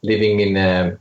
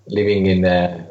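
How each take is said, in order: Both takes have the same delivery.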